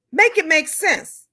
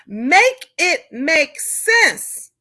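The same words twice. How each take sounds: First: Said in the usual way. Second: Drawn out, word by word; very slow exasperated demand; slow emphasis. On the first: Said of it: "repeated emphatic phrase". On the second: Real, not acted. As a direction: spell it out slowly in disbelief. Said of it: "slowed emphatic repeat".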